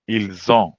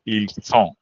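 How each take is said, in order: First: "Ils ont" joined with a z sound; linked words. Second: "ils sont" with a clear s; contrasting s sound. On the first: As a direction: link "Ils ont" as eel-zon. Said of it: "How to connect words". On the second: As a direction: say "ils sont" as eel-son, no z. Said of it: "Be compared to". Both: Shown as a demonstration.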